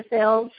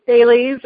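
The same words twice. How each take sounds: First: "Thales" said as THAYLZ; one-syllable pronunciation. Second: "Thales" said as THAY-leez; two-syllable pronunciation. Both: Shown as a demonstration. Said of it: "however you decide to pronounce that".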